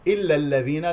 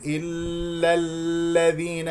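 First: "إلا الذين" without lingering on the doubled ل; correct unheld ل. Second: "إلا الذين" with the ل held long and slow; wrongly cling to each ل in "إلا الذين"; mistaken held ل. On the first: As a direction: pass straight through the ل in "إلا الذين". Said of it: "لا تمسك اللام المشددة". (نطق "إلا الذين" دون إمساك اللام) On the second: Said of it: "لا تقول". (نطق "إلا الذين" خطأً بإمساك اللام) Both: Shown as a demonstration.

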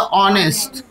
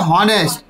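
First: ऑनेस्ट said with the h dropped, opening straight on the vowel; ऑनेस्ट with a silent h, as it is spoken in English. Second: हॉनेस्ट said with a clear h at the start, just as it is written; हॉनेस्ट with the h pronounced, read the way it is spelt; spelling pronunciation. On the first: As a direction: read ऑनेस्ट the English way, no h at all. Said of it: "English में पढ़ा जाता है". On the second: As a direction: sound out the h in हॉनेस्ट, letter by letter. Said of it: "लिखा हॉनेस्ट है". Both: Shown as a demonstration.

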